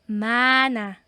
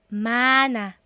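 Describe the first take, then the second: No difference in how they are said.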